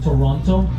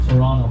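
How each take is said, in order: First: It is pronounced the way non-locals say it. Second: It is pronounced the way locals say it. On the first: The speaker is not from the city. The speaker calls it wrong. "don't say Toronto" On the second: The speaker is from the city. The speaker calls it right. "That's how we say it here"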